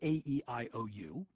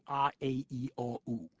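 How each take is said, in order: First: The vowels are sounded as English letter names. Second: The vowels are sounded as continental vowels. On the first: This is how English speakers say the vowels today. "we say A-E-I-O-U" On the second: This is how most European languages and Chaucer's English said them. "most European languages say A-A-E-O-U"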